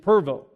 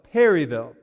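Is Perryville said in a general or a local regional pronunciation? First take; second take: local; general. First: It is said in the local regional pronunciation. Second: It is said in the speaker's general pronunciation. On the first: "the local pronunciation" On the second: "That's how I would say it"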